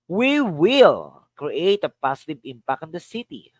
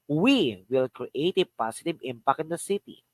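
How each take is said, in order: First: The word "will" carries the main stress. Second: The word "we" carries the main stress. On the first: "Here's another. Will" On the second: "The first is we"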